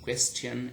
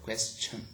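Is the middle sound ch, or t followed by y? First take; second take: t plus y; ch. First: The middle is a t followed by y. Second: The middle is a single ch sound. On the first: This is the older pronunciation. "earlier we had" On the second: This is the modern pronunciation. "right now we've got question ch, ch sound"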